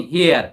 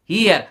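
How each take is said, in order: First: Here said as "hiə" with no r, a low falling model word; teacher models here without the r sound; silent r. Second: Here said as "iə", short, with no r and no h; teacher repeats the word here for the class; silent r repeat. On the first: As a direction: drop the r in here, "hiə", and let it fall. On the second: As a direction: repeat here briefly, just "iə". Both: Shown as a demonstration. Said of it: "आर का उच्चारण नहीं करते हैं ना".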